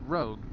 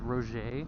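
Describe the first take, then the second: First: The name sounds like 'Rogue', with one syllable. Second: The name sounds like 'Roger', with two syllables. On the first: The speaker has always said it this way. "I've always pronounced it as as Rogue" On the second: Someone else says it this way. "I heard somebody pronounce um"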